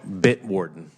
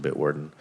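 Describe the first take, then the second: First: Bitwarden said slowly and clearly; a slower, firmer Bitwarden; slowed-down repeat. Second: Quick, casual Bitwarden; said really fast. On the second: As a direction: run Bitwarden off at the end of a list. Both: Real, not acted. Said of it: "you say it really fast".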